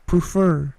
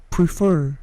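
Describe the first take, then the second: The two takes are said the same way.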